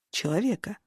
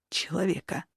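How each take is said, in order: First: Said in the usual way. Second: Человека said hushed and shaky; trembling. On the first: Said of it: "повторил он". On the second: A narrator's reading. Android pleads with the sorceress, человека trembling and hushed. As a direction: let человека tremble, fading quietly. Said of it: "дрожащим голосом произнёс".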